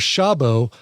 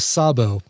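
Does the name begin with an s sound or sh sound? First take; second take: sh; s. First: The name begins with a sh sound. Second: The name begins with an s sound. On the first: The name is read the Polish way. "Polish you go sh" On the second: The name is read the Hungarian way. "Hungarian you go s"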